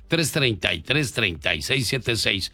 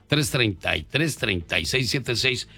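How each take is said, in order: Both takes have the same delivery.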